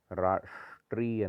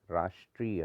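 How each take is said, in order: First: राष्ट्रीय split around retroflex sh; wrong heavy sh. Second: राष्ट्रीय as "raastriya"; lighter sibilant. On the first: Teacher showing the error, राष्ट्रीय with heavy sh. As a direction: hold the sh in राष्ट्रीय. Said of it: "नहीं होता". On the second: Teacher correcting it, राष्ट्रीय with light s. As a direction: say राष्ट्रीय joined, s-like. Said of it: "होता है". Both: Shown as a demonstration.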